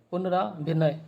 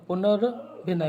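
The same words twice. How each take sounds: First: "पुनराभिनय" with long रा; wrong form. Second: "पुनर्भिनय" with no long vowel after r; correct form. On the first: Teacher quoting the mistake, long vowel after r. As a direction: stretch रा in "पुनराभिनय". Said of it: "ये नहीं होगा". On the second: Teacher correcting students, r without long vowel. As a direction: say "पुनर्भिनय" as पुनर, भिनय. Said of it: "पुनर्भिनय होगा". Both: Shown as a demonstration.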